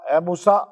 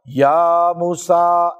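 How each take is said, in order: First: Said in the usual way. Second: Very slow, stretched call of یا موسیٰ; drawn-out divine call. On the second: Acted. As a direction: draw out یا موسیٰ like a recitation. Divine call to Musa voiced. (یا موسیٰ کو بہت آہستہ کھینچ کر پکارنا)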